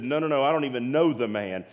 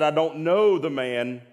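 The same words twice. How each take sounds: First: Brisk, mildly insistent retold denial; quick denial. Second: Slower, emphatic mock oath; retold swearing denial. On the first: Peter denying knowing Jesus to an accuser, quick dismissive denial. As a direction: brush off the accusation in a quick run. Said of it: "And he said". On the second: Peter swearing at the third asking, slow emphatic denial. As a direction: hit each word in a forceful retold denial. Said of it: "he cursed and he swore".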